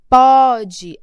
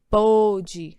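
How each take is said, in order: First: The stressed o vowel is open. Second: The stressed o vowel is closed. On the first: "Aqui em cima você pronuncia mais aberto"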